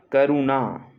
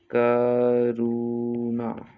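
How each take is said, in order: First: Said in the usual way. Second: Very slow, stretched Karuna; drawn-out syllables. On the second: Shown as a demonstration. Teacher dictating to students, Karuna stretched syllable by syllable. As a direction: hold each vowel of Karuna long.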